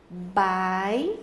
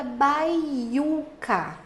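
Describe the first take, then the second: First: Baiuca broken into bai-u-ca; long pauses between the syllables of Baiuca. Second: Said in the usual way. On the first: Shown as a demonstration. Teacher making students notice the vowel, syllable by syllable. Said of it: "que você perceba aqui". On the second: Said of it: "Por exemplo, a palavra".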